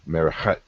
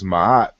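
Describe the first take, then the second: First: Said with an R sound and a hard K-like sound. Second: Said as short 'maat' without R or K sounds. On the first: This reflects the original sound values. The speaker calls it right. "this really should be" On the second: This is the common conventional reading. The speaker calls it wrong. "we're pronouncing this ma'at"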